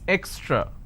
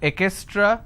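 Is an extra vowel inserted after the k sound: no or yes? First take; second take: no; yes. First: No extra vowel is inserted after the k. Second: An extra vowel is inserted after the k. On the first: The speaker calls it right. "it's extra" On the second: The speaker calls it wrong. "this is wrong"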